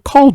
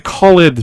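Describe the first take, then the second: First: The ending blends into one syllable. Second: The ending is said as a separate syllable. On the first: The speaker calls it right. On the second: The speaker calls it wrong.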